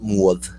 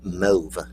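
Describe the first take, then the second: First: The vowel is an 'aw' sound like maw. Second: The vowel is a long 'o' like grove. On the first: The speaker calls it wrong. "not mauve. It's not spelled M A W V E" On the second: The speaker calls it right. "It rhymes with grove, so it's mauve"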